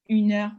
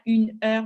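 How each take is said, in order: First: The two words run together without a break. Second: The two words are said separately, not linked. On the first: The speaker calls it right. "on dit une heure en continu" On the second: The speaker calls it wrong. "C'est pas une heure"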